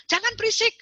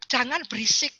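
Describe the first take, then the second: First: "Jangan berisik." snapped high as a parent's order; stern command. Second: Said in the usual way. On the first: Shown as a demonstration. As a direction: bark "Jangan berisik." at the kid. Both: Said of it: "Itu dogma".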